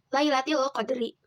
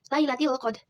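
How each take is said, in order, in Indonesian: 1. Frasa itu berakhir dengan vokal penuh. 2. Frasa itu berakhir dengan konsonan setengah bersuara.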